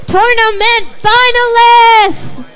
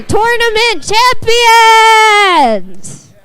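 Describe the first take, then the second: First: Said in the usual way. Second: Slow, drawn-out champion shout; big announcer shout. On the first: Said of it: "Or wait, no". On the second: Acted. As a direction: stretch out champions like a ring announcer. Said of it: "let 'em celebrate".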